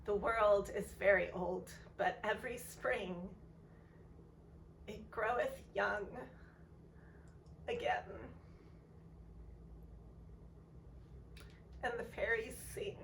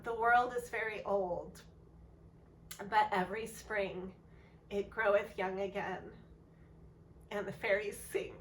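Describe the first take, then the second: First: Real emotion welling up, voice fading at the end; close to tears. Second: Composed second reading, keeping tears away; the same verse, now steady and sincere; steadier retake. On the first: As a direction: hold back tears through the lines. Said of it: "so that I don't cry". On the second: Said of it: "I'll read it again". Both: Real, not acted.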